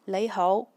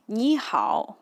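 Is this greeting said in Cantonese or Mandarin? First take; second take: Cantonese; Mandarin. First: It is said in Cantonese pronunciation. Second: It is said in Mandarin pronunciation. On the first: "in Yue Chinese or Cantonese, it pronounced as" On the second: "it is a Mandarin"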